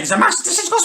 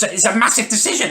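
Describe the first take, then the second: First: Much higher squeaky take on decision, rising; mock falsetto. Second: Higher, laughing through the words it's a massive decision; laughing mockery. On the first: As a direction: ape her in a silly squeak. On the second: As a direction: scoff at it with a laugh. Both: Mocking sister's big claim.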